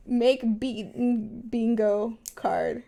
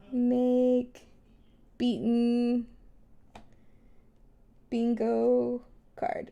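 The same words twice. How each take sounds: First: Said in the usual way. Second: Each word spaced out slowly; slow and deliberate. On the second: Shown as a demonstration. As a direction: dictate it word by word. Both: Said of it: "mental note to myself".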